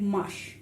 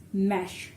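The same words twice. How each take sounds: First: "mush" with a short uh vowel, as in Mashrafi; full-name vowel. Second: "mash" with an open a as in cat; nickname vowel. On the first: Teacher showing the written form, "mush" with uh vowel. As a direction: say "mush" with an uh sound. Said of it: "this is how I will write". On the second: Teacher giving the player's short nickname, "mash" with open a. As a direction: say "mash" with the a sound. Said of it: "a sound". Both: Shown as a demonstration.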